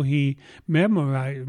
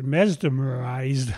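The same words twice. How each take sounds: First: Said in the usual way. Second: Mesmerized said slowly and carefully; deliberate slow self-correction. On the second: Real, not acted. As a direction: drag out mesmerized to get it right. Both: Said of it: "I get it right".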